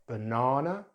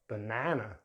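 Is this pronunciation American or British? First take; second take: British; American. First: It is said with a British accent. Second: It is said with an American accent. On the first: "in British English" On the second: "then American English"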